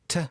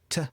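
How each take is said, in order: First: The word shrinks to a soft t sound. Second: The word shrinks to a soft t sound.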